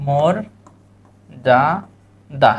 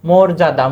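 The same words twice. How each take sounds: First: "মর যা দা" in three parts with long gaps; syllable-by-syllable demo. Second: Said in the usual way. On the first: Shown as a demonstration. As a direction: dictate "মর যা দা" one syllable at a time. ("মর যা দা" থেমে থেমে ভেঙে বলা) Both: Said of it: "শব্দটা কি?".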